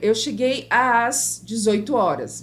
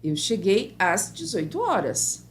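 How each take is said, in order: First: The word às is drawn out as two a sounds. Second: The word às is said as one plain a sound. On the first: The speaker calls it wrong. "Você não fala dessa forma" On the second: The speaker calls it right. "A gente fala"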